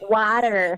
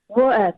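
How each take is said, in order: First: It is said in an American accent. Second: It is said in an English accent.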